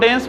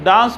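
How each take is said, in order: First: It is said with a Canadian-style vowel. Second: It is said with a non-Canadian-style vowel.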